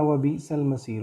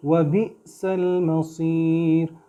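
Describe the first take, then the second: First: व बि सल मसीर run together fast with no catch; wrong smooth reading. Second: व बि सल मसीर slowly with a light stop after बि; correct with catch. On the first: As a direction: rush व बि सल मसीर without the stop. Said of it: "इसको ऐसे नहीं पढ़ना". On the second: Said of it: "झटका सा देंगे". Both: Shown as a demonstration.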